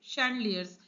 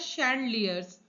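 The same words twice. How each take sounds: First: The word begins with an 'sh' sound. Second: The same.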